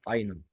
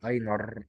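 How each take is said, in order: First: اينر ending in an open "ah", no R; correct German ending. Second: اينر with the final R fully sounded and held; deliberately mispronounced R. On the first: Teacher giving the proper German form, silent R in اينر. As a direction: let the end of اينر melt into a vowel. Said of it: "المفروض نطقها صح اينر". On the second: Teacher showing learners the ER ending, over-pronounced R in اينر. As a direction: lean hard on the written R ending of اينر. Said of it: "انا كده بنطق الماني غلط". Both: Shown as a demonstration.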